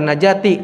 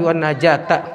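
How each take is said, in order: First: The word ends with an 'i' vowel. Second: The word ends with an 'a' vowel. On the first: The speaker calls it wrong. "jadi bacanya jangan wan najati" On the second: The speaker calls it right. "tapi wan najata"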